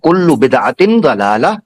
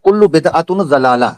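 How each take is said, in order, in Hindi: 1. दूसरे शब्द का अंत 'in' की आवाज़ से होता है। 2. दूसरे शब्द का अंत 'un' की आवाज़ से होता है। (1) "अब सुनना आपने गौर से" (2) "इन्होंने पढ़ा है"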